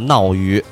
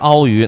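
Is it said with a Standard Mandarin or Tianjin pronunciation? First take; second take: Tianjin; Standard Mandarin. First: It is said with a Tianjin 'nao' onset. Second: It is said with a standard 'ao' onset.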